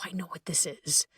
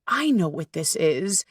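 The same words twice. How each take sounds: First: A hushed whisper of calm recognition; whispered realization. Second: Said in the usual way. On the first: Shown as a demonstration. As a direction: breathe it out as a soft whisper. Calm self-aware inner voice.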